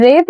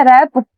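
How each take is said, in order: First: रेप with a long closed 'ay' vowel; रेप with 'ay', not open 'a'; vowel contrast. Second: रैप with an open 'ae' vowel; रैप with open 'ae', not 'ay'; vowel contrast. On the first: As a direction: say रेप to rhyme with English 'tape'. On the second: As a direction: say रैप like English 'rap'. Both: Shown as a demonstration. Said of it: "रेप या रैप?".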